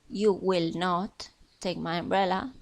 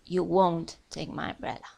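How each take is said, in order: First: Will not is said as two full words. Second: Will not is contracted to one word, won't. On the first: "la negativa en el futuro podemos decir" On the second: "casi siempre se contrae"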